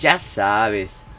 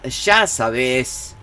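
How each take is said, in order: First: The word 'ya' begins with a 'y' sound. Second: The word 'ya' begins with an 'sh' sound. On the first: This is how it is said elsewhere. "instead of "ya sabes."" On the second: This is how it is said in Argentina. "in Argentina they uh, they say "sha" instead of "ya.""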